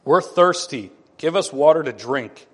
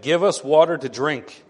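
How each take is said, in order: First: Louder, pushier demand on "We're thirsty"; hammed-up entitled crowd; arrogant demand. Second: A touch of a demanding crowd; mildly hammed-up insistence; quarrelsome demand. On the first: People demanding water from Moses, arrogant. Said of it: "Do you hear the arrogance in that?". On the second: Israelites quarreling with Moses over water, demanding. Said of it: "the people quarreled with Moses and said".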